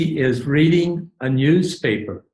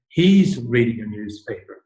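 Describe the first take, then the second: First: He is is said as two full words. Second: He is is shortened to one syllable.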